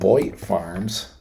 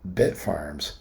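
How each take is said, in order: First: The first syllable sounds like 'boyd'. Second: The first syllable sounds like 'bit'. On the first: The speaker calls it wrong. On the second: The speaker calls it right.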